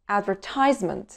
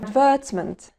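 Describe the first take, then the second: First: It is said with an American accent. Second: It is said with a British accent. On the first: "وبعدين الأمريكان أكسنت" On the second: "هننطق الأول البريتش أكسنت"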